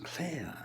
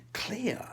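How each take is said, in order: First: Said in the usual way. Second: "clear" whispered breathily, pitched up. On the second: Shown as a demonstration.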